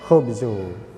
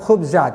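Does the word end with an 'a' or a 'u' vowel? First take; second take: u; a. First: The word ends with a 'u' vowel. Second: The word ends with an 'a' vowel. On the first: The word is marked as a subject. The speaker calls it wrong. "tidak boleh khubzu" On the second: The word is the object of the verb. The speaker calls it right. "Tetap khubza"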